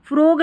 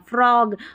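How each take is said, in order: First: The vowel is a closer 'oh' sound. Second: The vowel is an open 'aw' sound. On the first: The speaker calls it wrong. "फ्रोग नहीं पढ़ना" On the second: The speaker calls it right. "ओ यहाँ पर ऑ पढ़ा जा रहा है"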